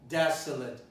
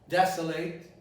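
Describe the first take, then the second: The two takes are said the same way.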